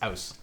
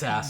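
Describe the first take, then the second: First: The vowel is pronounced like 'ow'. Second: The vowel is pronounced like 'ah'. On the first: This is the real pronunciation. The speaker calls it right. "I actually did look up how to really pronounce it" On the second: This is a running joke. The speaker calls it wrong. "But the running joke is"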